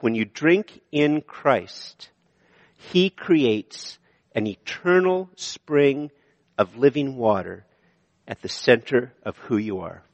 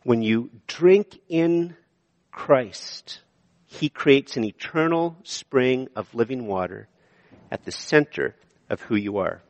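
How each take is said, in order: First: Very slow, word by word; deliberate sermon point; slow emphatic point. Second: Hushed restatement; slow hushed repeat. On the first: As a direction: spell out each word of the point. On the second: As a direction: linger on Christ, then soften. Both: Shown as a demonstration. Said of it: "And the second point".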